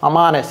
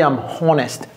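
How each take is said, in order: First: The words run together with an a-like o. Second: The words are separate with a plain o. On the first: "la liaison qu'il fait avec le M et le H" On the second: "Il n'a pas dit"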